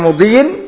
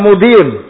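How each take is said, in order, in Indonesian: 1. Kata itu berakhir dengan bunyi 'in'. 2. Kata itu berakhir dengan bunyi 'un'. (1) "Boleh dibaca wa mudhiyin berarti ma'tuf pada apa? Amrin" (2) "Boleh juga dibaca wa mudiyun"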